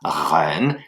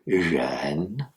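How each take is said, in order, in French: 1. Le premier son est comme un r français. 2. Le premier son est entre le j français et le r français. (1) "il ne s'agit pas de dire reine" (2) "c'est jeune, entre les deux"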